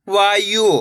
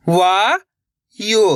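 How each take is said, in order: First: Said in the usual way. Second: वायु split as rising वा, pause, यु; syllable by syllable. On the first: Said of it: "इनको आपस में लगा पढ़ना है". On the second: Shown as a demonstration. Teacher teaching how to read, वायु broken into syllables. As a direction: sound out वायु slowly in two pieces. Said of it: "एक अक्षर का उच्चारण करके".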